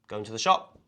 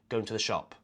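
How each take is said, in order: First: The pitch rises at the end. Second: The pitch falls at the end. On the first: It asks whether someone is going to the shop. "it's a question" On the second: It states that someone is going to the shop. "if I was going to the shop, I'd just say"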